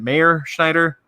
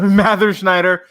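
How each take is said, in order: First: The first name does not rhyme with blather. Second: The first name rhymes with blather. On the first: The speaker calls it wrong. "Is it Mayor Schneider?" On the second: The speaker calls it right. "It's pronounced like blather"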